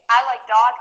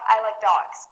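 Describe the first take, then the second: First: "dog" ending on a bare g, no S. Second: "dogs" with an audible S ending. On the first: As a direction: say "dog" without any S at the end. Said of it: "with no S". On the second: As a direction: sound the final S on "dogs". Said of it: "with an S". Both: Shown as a demonstration.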